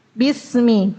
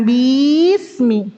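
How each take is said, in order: First: BISMI with a quick first i; short bi. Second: BISMI with "bii" dragged long; wrongly lengthened bi. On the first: Teacher giving the correction, unlengthened bi. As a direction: cut the "bi" of BISMI short, then s. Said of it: "Jangan dipanjangin". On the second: Teacher showing the mistake, overlong bi. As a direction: stretch the first i of BISMI. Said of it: "bukan bismi". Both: Shown as a demonstration.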